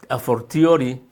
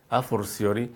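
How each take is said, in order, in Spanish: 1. La última palabra tiene un sonido t antes de -iori. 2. La última palabra tiene un sonido s antes de -iori. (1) "con T" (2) "también se puede decir a forciori"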